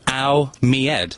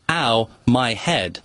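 First: My is said as me, English style. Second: My is said plainly as my. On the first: "But saying it English instead of saying my" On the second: "which is"

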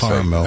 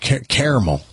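First: The word has its Northern regional pronunciation. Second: The word has its Southern regional pronunciation. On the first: This is how it is said up north. "and then I changed it to caramel" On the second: This is how it is said in the South. "when I grew up in the South, it was caramel"

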